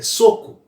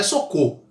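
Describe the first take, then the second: First: "soco" said as SO-co; correct first-syllable stress. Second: "soco" said as so-CÔ, weight on last syllable; wrong final stress. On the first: Teacher correcting the wrong version, "soco" stressed on SO. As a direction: punch SO in "soco", weak falling co. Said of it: "é soco". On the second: Teacher showing what it isn't, "soco" stressed so-CÔ. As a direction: shift the stress to the end of "soco". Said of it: "não é soco". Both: Shown as a demonstration.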